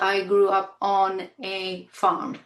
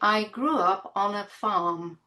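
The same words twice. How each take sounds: First: 'On a' is separated, with a full vowel. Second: 'On a' is linked, with a short weak vowel. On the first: The speaker calls it wrong. "It's not" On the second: The speaker calls it right. "There is this shortness of sound and the link"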